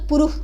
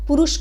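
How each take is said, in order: First: The word ends with a kh sound. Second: The word ends with a dental s sound. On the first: "नहीं तो" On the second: "आपको दंत स में बदल देगा"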